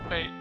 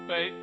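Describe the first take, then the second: Both takes have the same delivery.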